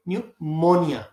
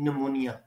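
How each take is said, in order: First: The first syllable sounds like 'new'. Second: The first syllable sounds like 'nee'. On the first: "इसको आप पढ़ेंगे न्यूमोनिया" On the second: "हम इसको कहते हैं निमोनिया"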